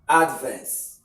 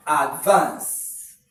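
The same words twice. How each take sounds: First: Advance as a noun, punched on AD; stress on first syllable. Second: Advance as a verb, loud push on VANCE; stress on second syllable. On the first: Teacher showing students the noun, first-syllable stress on advance. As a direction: hit AD in advance, let the rest fall. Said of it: "as a noun". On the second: Teacher showing students the verb, second-syllable stress on advance. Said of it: "as a verb". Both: Shown as a demonstration.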